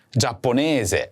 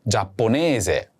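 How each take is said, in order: First: Said in the usual way. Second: Giapponese spelled out slowly, syllable by syllable; slow teacher demo of Giapponese; slow model word. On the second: Shown as a demonstration. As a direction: say Giapponese slowly and clearly for the learner. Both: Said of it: "Do you remember how to say Japanese?".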